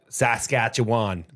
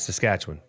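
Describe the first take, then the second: First: The final syllable is fully pronounced. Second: The final syllable is reduced. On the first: This is how Americans say it. The speaker calls it wrong. "They always pronounce the Wan" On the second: This is how locals say it. The speaker calls it right. "where it's Saskatchewan"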